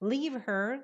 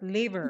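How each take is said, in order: First: The two words are said separately and carefully. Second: The two words run together quickly into one.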